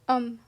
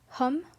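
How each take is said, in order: First: It starts straight on the vowel, no H. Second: It starts with a breathed H sound. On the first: The speaker calls it right. "you say um" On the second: The speaker calls it wrong. "You don't say hum"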